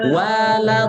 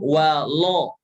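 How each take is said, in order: First: The L is thin with a light a vowel. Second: The L is heavy with a dark o-like vowel. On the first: The speaker calls it right. "karena huruf lam itu tipis" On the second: The speaker calls it wrong. "jangan walo, jangan lo tapi la"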